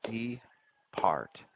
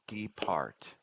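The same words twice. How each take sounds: First: "Depart" split into de and part with a gap; separated syllables. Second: "depart" with de and part close together, falling; syllables rejoined. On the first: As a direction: pause in the middle of Depart. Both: Shown as a demonstration. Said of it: "you have to hear the syllable sounds separately".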